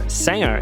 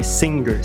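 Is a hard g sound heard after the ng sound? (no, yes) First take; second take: no; yes. First: The ng sound has no hard g after it. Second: The ng sound has a hard g after it. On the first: The speaker calls it right. "Cantor é singer" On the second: The speaker calls it wrong. "a gente quer falar com G"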